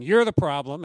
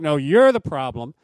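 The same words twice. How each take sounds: First: Loud stress on "You're"; mock blame, hitting "You're" hard; accusing husband. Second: "you're" thrown back much louder; mock comeback with a big loud "you're"; accusing wife retorting. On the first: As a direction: punch "You're" as a pointed accusation. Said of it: "husband pointing at the wife saying". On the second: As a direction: fire the blame back, leaning hard on "you're". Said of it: "there's the wife pointing to be like".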